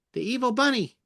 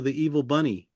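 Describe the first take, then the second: First: High-pitched evil bunny; squeaky villainous rabbit. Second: Said in the usual way. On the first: Shown as a demonstration. Voicing evil bunny character.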